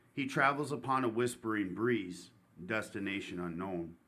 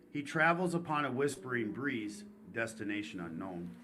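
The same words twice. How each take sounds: Both takes have the same delivery.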